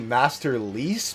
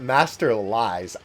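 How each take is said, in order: First: The last syllable rhymes with 'geese'. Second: The last syllable rhymes with 'eyes'. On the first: This is how most people say it. "I hear everybody say Master Lease" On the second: This is how the speaker has always said it. "I've always called it Master Lies"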